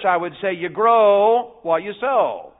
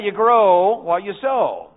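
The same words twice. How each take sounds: First: Put-on slow and simple, like teaching little kids; junior church voice. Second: Chanted, slow and deliberate, word by word; chanted, lead the congregation through it slowly. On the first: Preacher to children in junior church, slow and simple. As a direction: spell it out slowly for the children. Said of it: "If I were preaching to you all in junior church". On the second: Preacher leading church to repeat, slow chant. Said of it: "Let's all do that". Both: Shown as a demonstration.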